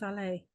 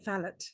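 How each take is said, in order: First: The final t sound is silent. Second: The final t sound is pronounced. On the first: The speaker calls it right. "We say valet without the T" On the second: The speaker calls it wrong. "We don't say valet"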